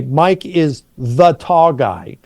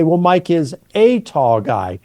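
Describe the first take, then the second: First: Slow, with "the" leaned on to pick out one man; stress on the. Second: "a" given the weight so tall is a kind of guy; stress on a. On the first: Explaining identity to a listener, stress on "the". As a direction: hit "the" firmly so it means that particular tall guy. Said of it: "You're pointing to identity there". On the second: Explaining quality to a listener, weight on "a". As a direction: lean on "a" lightly, describing what sort of man. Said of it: "talking about a quality or characteristic". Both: Shown as a demonstration.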